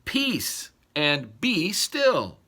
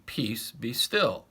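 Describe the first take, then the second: First: Very slow, deliberate "Peace and be still."; slow command. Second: Slow, calm command. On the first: Shown as a demonstration. Pastor showing the imperative to listeners, slow firm command. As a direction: draw out every word of "Peace and be still.". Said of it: "It is a command". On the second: Acted. Jesus speaking to the sea, slow calm command. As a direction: still the sea gently but firmly.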